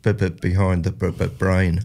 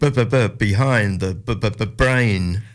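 First: It is said plainly, with little feeling. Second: It is said with more feeling and energy.

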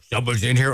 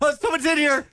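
First: It is said in a deep, manly voice. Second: It is said in a light, unmanly voice.

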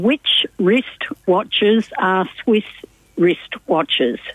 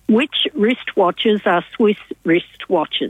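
First: It is said at a normal pace. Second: It is said at a faster pace.

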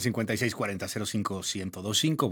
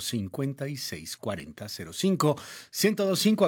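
First: The number is said at a faster pace. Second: The number is said at a slower pace.

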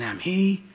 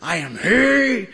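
First: It is said quietly and softly. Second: It is said loudly like a lion.

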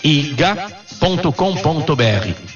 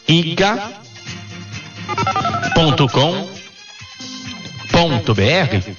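First: It is said at normal speed. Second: It is said slowly.

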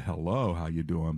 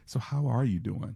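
First: It sounds like a casual, passing greeting. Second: It sounds like a sincere, caring question.

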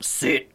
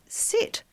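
First: It is said in a stern, commanding tone. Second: It is said nicely, with a higher pitch.

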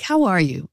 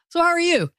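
First: It is asked in a sincere, caring tone. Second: It is asked in a casual, offhand tone.

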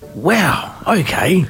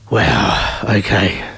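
First: It sounds supportive and happy. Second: It sounds let down and disappointed.

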